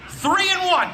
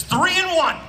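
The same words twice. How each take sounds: First: "three" high and loud, laughing through it; stress on three, with a laugh. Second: "three" punched high and loud, like reading the label; stress on three. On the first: Shown as a demonstration. Repeating the label for the crowd, laughing on "three". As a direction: laugh as you punch "three". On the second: Retold or imitated. Reading the shampoo label to the crowd, "three" punched high. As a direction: hit "three" hard and high, the way the bottle says it. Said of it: "And it says".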